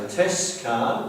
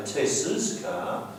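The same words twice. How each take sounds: First: "Tess'" said with no extra syllable; mock wrong form. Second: Said in the usual way. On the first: Shown as a demonstration. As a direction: demo the wrong "Tess' car". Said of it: "we don't say Tess' car". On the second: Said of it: "we say Tess's car".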